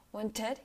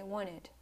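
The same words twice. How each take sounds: First: "wanted" with a clear T after N; T sounded. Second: "wanted" like "wannid"; silent T. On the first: Teacher showing the wrong way, "wanted" with full T. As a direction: release the T in "wanted". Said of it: "You don't say wanted". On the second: Teacher showing American English, "wanted" with silent T. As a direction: drop the middle T in "wanted". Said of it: "the T is silent". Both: Shown as a demonstration.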